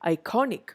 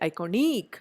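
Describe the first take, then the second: First: The stress falls on the middle syllable. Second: The stress falls away from the middle syllable. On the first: The speaker calls it right. "I say iconic" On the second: The speaker calls it wrong. "I don't say iconic"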